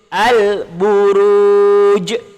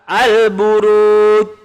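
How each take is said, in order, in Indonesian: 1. Bunyi j terakhir berakhir dengan pantulan yang jelas. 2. Bunyi j terakhir berakhir datar tanpa pantulan. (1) "Yang betul al-buruj"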